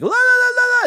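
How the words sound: It is said at a very high pitch.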